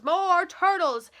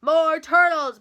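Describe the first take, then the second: First: Slow stretched-out bray; drawn-out bray. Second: Loud bellowing command; bellowed order. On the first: King demanding turtles, slow braying repeat. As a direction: drag each word out like a bray. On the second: King ordering up more turtles, loud bellow. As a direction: bellow it out to the whole pond. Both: A narrator's reading. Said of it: "he bellowed and brayed".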